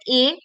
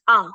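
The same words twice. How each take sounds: First: A said as the letter name, "ay". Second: A said as an open "ah"; sound of A. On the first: Teacher naming the alphabet letter A, as "ay". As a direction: say A as "ay", rising. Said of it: "the alphabet A". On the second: Teacher giving the class the sound of A, "ah". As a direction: say A as "ah", falling. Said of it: "the sound is A". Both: Shown as a demonstration.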